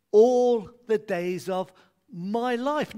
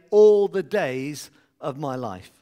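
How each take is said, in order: First: All the days of my life, slow with each word weighted, louder; key phrase stressed. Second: All the days of my life. said slow and louder as the cue; leading a response. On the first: Preacher pointing the congregation to verse six, slow and weighted. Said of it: "the key phrase is verse six". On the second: Preacher cueing the congregation's response line, loud and slow. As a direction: call out the response line for them. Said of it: "When I pause, you say". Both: Shown as a demonstration.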